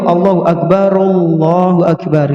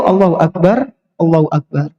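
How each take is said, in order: First: The two phrases are joined without a pause. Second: The two phrases are separated by a pause. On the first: "Kalau gabung itu" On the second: "Kalau pisah itu"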